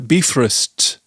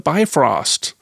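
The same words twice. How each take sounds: First: The word is said with an Icelandic accent. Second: The word is said with an American accent. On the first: The speaker calls it right. "if you live here in Iceland, you will know that it's uh" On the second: The speaker calls it wrong. "It's it's said in an American accent"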